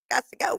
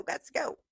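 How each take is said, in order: First: High hurried exit. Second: Whispered. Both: Retold or imitated.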